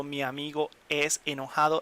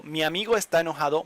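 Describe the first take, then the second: First: The wrong version, es enojado, said as an example of a mistake; teacher says "Mi amigo es enojado" as the incorrect sentence; wrong ser form. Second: The right version, with "está" stressed and the line said fast; teacher gives the fix, landing on "está"; correct estar form. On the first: Teacher showing students the wrong sentence. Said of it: "doesn't make sense". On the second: Teacher correcting the example for students. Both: Shown as a demonstration.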